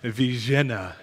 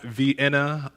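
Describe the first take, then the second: First: The name is said with a local pronunciation. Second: The name is said the usual English way. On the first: It names the city where the office is. "is what they tried to convince me how to pronounce it" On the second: It names the city in Austria. "So not Vienna, Austria"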